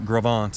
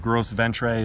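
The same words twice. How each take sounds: First: It is pronounced with French-style sounds. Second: It is pronounced with plain English letter sounds. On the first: The speaker calls it right. "is apparently how that's pronounced" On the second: The speaker calls it wrong. "if you want to grossly mispronounce it"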